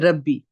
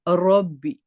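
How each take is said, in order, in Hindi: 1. r की आवाज़ सादी और हल्की है। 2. r की आवाज़ भारी और भरी हुई है। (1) "हम कैसे पढ़ते हैं? ... रेगुलर रब्बी" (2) "उसको हमने कैसे करना है?"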